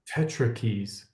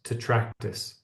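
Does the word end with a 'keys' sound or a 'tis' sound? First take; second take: keys; tis. First: The word ends with a 'keys' sound. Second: The word ends with a 'tis' sound. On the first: This is how the other person says it. "you are calling it tetrakeys" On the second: This is the usual pronunciation. "I've always heard it pronounced tetractys"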